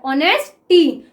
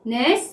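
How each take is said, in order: First: Said in the usual way. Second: "honesty" in three pieces with long pauses; syllable by syllable. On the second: Shown as a demonstration. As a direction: dictate "honesty" as "ऑ", "नेस", "टी", far apart. Sounds out word while writing.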